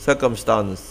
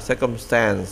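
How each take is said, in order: First: Circumstance with British vowels, ending in a crisp "stans"; British pronunciation. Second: American pronunciation. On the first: Teacher demonstrates the British reading of circumstance. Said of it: "dòng Anh là". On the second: Teacher contrasts it with the American reading of circumstance. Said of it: "dòng Mỹ là". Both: Shown as a demonstration.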